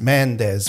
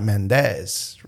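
First: The stress falls on the first syllable. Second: The stress falls on the second syllable. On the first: The speaker calls it right. "it's Mendez, right?" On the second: The speaker calls it wrong. "Not Mendez"

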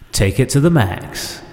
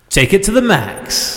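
First: The phrase is said at normal volume. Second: The phrase is shouted very loudly. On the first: The speaker calls it right. "So you didn't need to shout then, and it worked better" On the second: The speaker calls it wrong. "Why'd you shout?"

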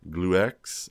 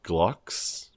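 First: The name is said with an extra syllable. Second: The name is said as one syllable.

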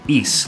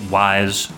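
First: The name is said with an ee vowel. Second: The name is said with an eye vowel. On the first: "every entry pronounces it "ees" like fleeks" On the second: "I still pronounced it "wise" for years"

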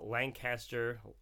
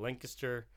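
First: It is said in a general, non-local way. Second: It is said the way Lancaster locals say it.

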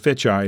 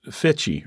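First: The final vowel sounds like 'eye'. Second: The final vowel sounds like 'ee'. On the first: "You can say E or I" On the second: "You can say E or I"

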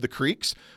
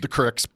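First: Creek is said with a long ee vowel. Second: Creek is said as Crick, Missouri style.

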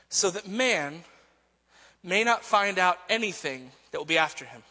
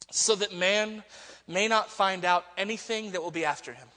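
First: It is read with a changed, exaggerated intonation. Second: It is read with a plain, ordinary intonation.

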